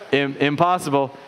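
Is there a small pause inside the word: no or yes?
no. It is said as one word without a pause. Something cannot be done.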